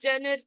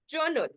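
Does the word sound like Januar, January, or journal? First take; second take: Januar; journal. First: The word sounds like Januar. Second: The word sounds like journal. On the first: The speaker calls it wrong. "For some students they'll be pronounced as Januar" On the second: The speaker calls it right. "It's like journal. This is the pronunciation of the word"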